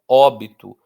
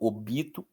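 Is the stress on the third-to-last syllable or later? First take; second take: third-to-last; later. First: The stress is on the third-to-last syllable. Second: The stress falls after the third-to-last syllable. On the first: The speaker calls it right. "eu falo" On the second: The speaker calls it wrong. "Eu não falo"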